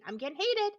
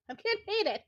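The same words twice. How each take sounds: First: Firm, rising heat in the voice; "heated" pushed a little harder as anger creeps in; getting heated. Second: Repeated higher and louder, the anger spilling over; "getting" hit hard, higher than before; more heated. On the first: Streamer admits to chat she is getting heated, slightly raised voice. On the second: Streamer repeats to chat that she is heated, raised voice. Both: Real, not acted.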